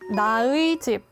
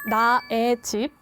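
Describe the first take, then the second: First: The particle is pronounced with the vowel 'ui'. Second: The particle is pronounced with the vowel 'e'.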